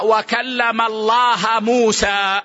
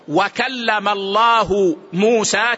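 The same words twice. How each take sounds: First: The word Allah ends with an -a vowel. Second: The word Allah ends with a -u vowel. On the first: Moses is the one who speaks to God. The speaker calls it wrong. "من لا يعرف الضبط ولا النحو" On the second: God is the one who speaks to Moses. The speaker calls it right. "المكلم هو الله والمكلم هو موسى"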